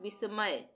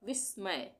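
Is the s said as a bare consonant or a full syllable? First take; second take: full syllable; bare consonant. First: The s is said with its own vowel. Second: The s is said without a following vowel. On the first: "अगर पूरा स होता तो हम क्या बोलते हैं?" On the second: "यहाँ पे आधा स है"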